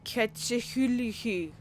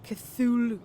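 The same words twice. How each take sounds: First: Cthulhu mangled as ketch-uh-hoo-lee-hee; playful Cthulhu. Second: Cthulhu crisp as kuh-THOO-loo; quick Cthulhu. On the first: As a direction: stretch Cthulhu into silly syllables. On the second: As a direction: snap out Cthulhu clean. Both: Shown as a demonstration. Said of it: "whatever way I want to say it".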